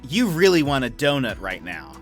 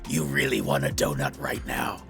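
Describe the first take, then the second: First: It is said in a normal speaking voice. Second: It is said in a low, scary deep voice.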